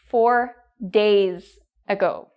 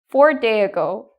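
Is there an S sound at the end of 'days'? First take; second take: yes; no. First: The word days ends with an S sound. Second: The word days ends without an S sound. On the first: The speaker calls it right. "It should be four days ago" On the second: The speaker calls it wrong. "So you need to pronounce the S"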